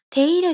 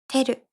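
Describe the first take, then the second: First: The middle 'i' sound is clearly pronounced. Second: The middle 'i' sound is dropped entirely. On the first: "ているじゃなくて" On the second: "いが消えてます"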